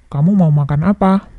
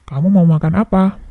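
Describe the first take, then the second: The two takes are said the same way.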